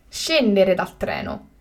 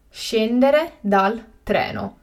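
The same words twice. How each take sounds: First: Said in the usual way. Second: Slow and carefully spaced; slow, clear repetition. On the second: Shown as a demonstration. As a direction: say it again slowly for learners. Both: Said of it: "teacher repeats the word twice".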